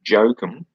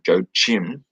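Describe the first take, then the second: First: The name begins with a Y sound. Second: The name begins with a J sound. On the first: "for some reason I want to say it with yeah" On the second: "if you're going to pronounce it in English"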